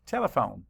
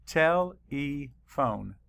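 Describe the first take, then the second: First: Said in the usual way. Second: Tele-phone said slowly, split into its two parts, tele and phone; syllables split. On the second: Shown as a demonstration. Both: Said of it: "Let's count the syllables".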